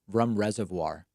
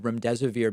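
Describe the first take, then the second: First: The drug name is distorted into 'rum reservoir'. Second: The drug name is pronounced in its standard form. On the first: The speaker calls it wrong. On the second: The speaker calls it right.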